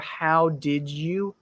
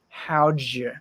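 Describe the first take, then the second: First: Every word is said fully and separately. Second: The words are squeezed together into two syllables.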